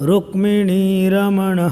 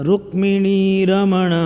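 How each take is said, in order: The two takes are said the same way.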